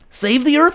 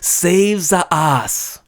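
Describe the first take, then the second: First: It is said with a plain English accent. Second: It is said with a Japanese katakana-style accent.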